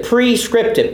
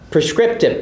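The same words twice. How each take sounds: First: "prescriptive" with a long, clear PREE at the front; stressed first syllable. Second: Said in the usual way. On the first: Shown as a demonstration. Pastor teaching a term to the congregation, "prescriptive" with PRE emphasized as "pree". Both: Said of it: "P R E".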